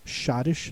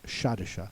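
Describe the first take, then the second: First: The word ends without a vowel sound. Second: The word ends with an added vowel sound. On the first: The speaker calls it right. "it's a silent E. It's Schottish" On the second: The speaker calls it wrong. "not Schottische"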